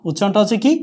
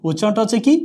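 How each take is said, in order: Both takes have the same delivery.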